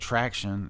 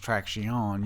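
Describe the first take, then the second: First: The word has an English pronunciation. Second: The word has a Spanish pronunciation.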